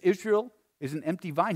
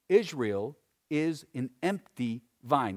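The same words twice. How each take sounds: First: It is read fast. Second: It is read slowly.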